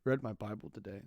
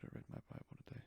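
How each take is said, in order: First: Said in the usual way. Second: Whispered aside. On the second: Shown as a demonstration. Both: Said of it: "I don't know why I'm acting like I don't".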